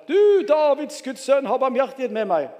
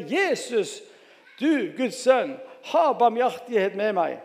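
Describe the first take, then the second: First: Louder crying out. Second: Raised, pleading call to Jesus; narrated calling out. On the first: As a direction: read it as an insistent shout for mercy. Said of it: "bare enda høyere". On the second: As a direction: read it as a measured cry for mercy. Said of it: "satte han i å rope". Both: A narrator's reading.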